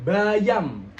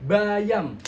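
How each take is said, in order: The two takes are said the same way.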